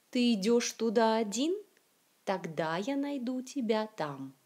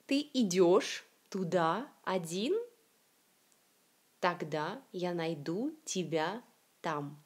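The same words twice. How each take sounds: First: Flowing reading, "один" rising as a question on its last syllable; connected model reading with final stress on "тогда", "найду", "тебя". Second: Slow word-by-word reading, stressing the ends of "идёшь", "туда", "один"; careful teacher's reading, last syllables of "найду", "тебя" stressed; final-syllable stress, slow. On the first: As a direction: run the words together, stressing the ends of "идёшь", "туда", "один". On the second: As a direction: separate each word with pauses and lean on its last syllable, as in "тогда".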